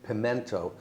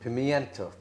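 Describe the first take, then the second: First: No 'ee' sound follows the 'm'. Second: An 'ee' sound follows the 'm'.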